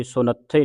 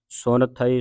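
First: ਸੁਨੱਥੇ fused into one word with a doubled th; ਸੁਨੱਥੇ with a tight, long th; run-together mispronunciation. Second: ਸੁਨ, then ਥਈ, without doubling the th; split pronunciation. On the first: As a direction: demonstrate the error ਸੁਨੱਥੇ, no word break. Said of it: "ਨਹੀਂ ਪੜ੍ਹਨਾ". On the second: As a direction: keep ਸੁਨ apart from ਥਈ. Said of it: "ਸੁਨੱਥੇ ਨਹੀਂ ਪੜ੍ਹਨਾ". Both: Shown as a demonstration.

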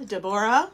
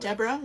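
First: Deborah said "deh-BOR-ah"; alternative pronunciation. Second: Deborah said "DEB-ra"; alternative pronunciation. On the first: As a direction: stress the middle of Deborah, "BOR". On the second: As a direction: Deborah shortened to two syllables, stressed "DEB". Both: Shown as a demonstration. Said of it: "not sure if you pronounce it".

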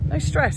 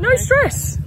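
First: Said in the usual way. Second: Excited squeal. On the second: Acted. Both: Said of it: "We're in no stress as well".

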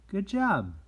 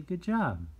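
First: High, loud "Good job" falling at the end; shower the child with praise; cheerful praise. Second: Bright, high "Good job" with a falling finish; cheerful praise. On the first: Teacher modelling praise for a friend's drawing, high and loud. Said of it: "So just say". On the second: Teacher showing kids how to praise a friend, bright and high. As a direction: praise the drawing warmly and brightly. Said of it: "And so you wanna say". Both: Shown as a demonstration.

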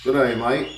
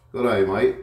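First: Loud, high mock Australian greeting; hammed-up Australian "Good day, mate"; playful Australian accent greeting the lace monitor. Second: Loud, high mock Australian "Good day, mate"; hammed-up Australian twang on "mate"; playful Australian accent greeting the pet; mock Australian again.

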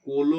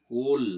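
First: "কোল" as two syllables, ko-lo, with a vowel after l; vowel-ending wrong form. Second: "কোল" stopped on a final l, no vowel after it; closed syllable. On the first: Teacher showing what is not said, "কোল" ending in a vowel as kolo. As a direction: add an open o to the end of "কোল". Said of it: "ল স্বরান্ত উচ্চারিত হচ্ছে না". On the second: Teacher showing how we pronounce it, "কোল" closed on l. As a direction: end "কোল" on the consonant, as kol. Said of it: "আমরা উচ্চারণ করছি". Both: Shown as a demonstration.

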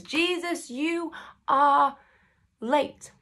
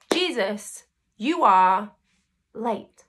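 First: Higher, whining hurt tone on "you are late"; a wounded, pleading complaint; plaintive reproach. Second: Leaning hard on "you are" before a beat, then "late" dropped; a mild accusing jab at "you are"; pointed reproach. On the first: Preacher voicing Mary's hurt at Jesus, higher and plaintive. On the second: Preacher voicing Martha's complaint to Jesus, stressed "you are". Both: Retold or imitated.

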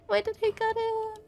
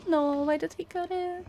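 First: Much higher, whining the question; high whiny complaint. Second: Said in the usual way. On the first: Real, not acted. Gamer whining at the game for cutting the music.

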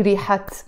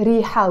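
First: ريحت closed with an audible final t; wrongly sounded t. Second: ريحة ending on an open -ha, no t; silent ta marbuta. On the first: Teacher showing the form never used, final t sounded. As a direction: put a t on the end of ريحت. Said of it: "we never say". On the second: Teacher saying the word on its own, silent t. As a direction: leave the t off ريحة. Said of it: "we don't pronounce the ت مربوطة". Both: Shown as a demonstration.

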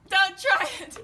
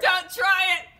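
First: Repeated warning shout. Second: DONT yelled loud and high; hammed-up warning shout. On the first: Acted. Host dubbing the duel, with a louder repeated warning. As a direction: TRY yelled loud and high, falling. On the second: Host dubbing the duel, with a loud hammed-up warning. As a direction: bark the warning hard. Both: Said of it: "doing battle".

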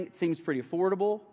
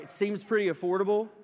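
First: Said in the usual way. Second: Pretty lifted with a knowing rise; "pretty" pointed, teasing the newly engaged; teasing stress on pretty. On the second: Shown as a demonstration. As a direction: lean on "pretty" as a wink at Peyton. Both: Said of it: "Peyton, right?".

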